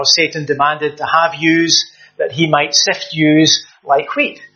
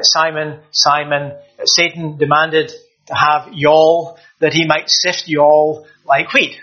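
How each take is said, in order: First: A hint of Glasgow Scots, yous said plainly; lightly voiced Glasgow accent, slowing at the end. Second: Slow, light Southern US drawl on y'all; preacher lightly voicing the verse in a Southern US accent. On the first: Preacher shows how Glasgow would say it, mild Glasgow accent. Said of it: "if from the west of Scotland, from Glasgow". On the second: Preacher shows how the Southern US would say it, slow mock Southern US accent. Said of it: "if we were in the southern states".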